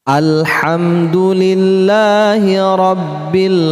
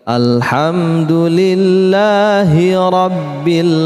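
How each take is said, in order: No difference in how they are said.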